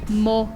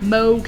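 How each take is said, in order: First: The O is a pure, round vowel. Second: The O glides into a diphthong. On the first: The speaker calls it right. "So this word is moke" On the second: The speaker calls it wrong. "not moke"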